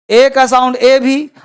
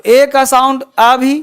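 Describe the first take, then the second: First: "ए" as a long ay, like the letter's name; letter name demo. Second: "अ" as a short open uh sound; letter sound demo. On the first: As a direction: draw out the second "ए" as a long ay, ending on a rise. ("ए" का लंबा उच्चारण) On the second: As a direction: show that ए can sound as a short "अ", ending on a rise. ("अ" का छोटा, खुला उच्चारण) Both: Shown as a demonstration. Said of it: "sound क्या होता है वो सुनिए".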